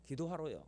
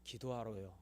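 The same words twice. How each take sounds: First: Said in the usual way. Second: Quiet reply. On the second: Retold or imitated. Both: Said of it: "제가 그때 뭐라고 그랬냐면".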